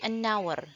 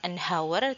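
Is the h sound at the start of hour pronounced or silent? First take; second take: silent; pronounced. First: The h at the start is silent. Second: The h at the start is pronounced. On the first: The speaker calls it right. "silent h ini ya" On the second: The speaker calls it wrong. "bukan an hour"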